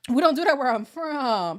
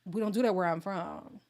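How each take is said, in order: First: Higher, much louder declaration; loud emphatic repeat. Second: Said in the usual way. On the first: Shown as a demonstration. Repeating her family rule to viewers, a loud declaration. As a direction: belt it out proudly.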